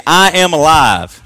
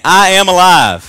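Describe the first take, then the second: First: "I am alive" said slowly and loudly, stress on "I"; leading a confession. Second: "I am alive" shouted higher and louder, slow, hitting "I"; like you mean it. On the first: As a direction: model the line for the church to repeat. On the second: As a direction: say it like you truly believe it. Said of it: "Like you mean it". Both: Shown as a demonstration.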